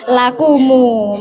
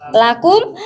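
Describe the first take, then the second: First: The final m is followed by a u vowel. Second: The word ends on a closed m sound.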